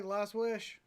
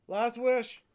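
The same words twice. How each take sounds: First: Said in the usual way. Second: Called out louder. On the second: Real, not acted. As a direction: call it out to Waz louder. Repeating the invite to Waz.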